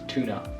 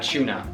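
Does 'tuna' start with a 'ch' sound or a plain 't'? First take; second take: plain t; ch sound. First: It begins with a plain 't' sound. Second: It begins with a 'ch' sound.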